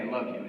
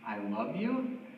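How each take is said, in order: First: The voice falls at the end, like a statement. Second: The voice rises at the end, like a question. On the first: The speaker affirms the love. The speaker calls it right. "affirming them with kind words" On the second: The speaker seems to doubt the love. The speaker calls it wrong. "You don't say it with an inflection point at the end or with a question mark"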